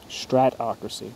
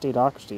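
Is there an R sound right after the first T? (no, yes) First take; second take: yes; no. First: There is an R sound after the first T. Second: There is no R sound after the first T. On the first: The speaker calls it right. "It is stratocracy. I've been saying it wrong" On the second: The speaker calls it wrong. "I thought it was statocracy"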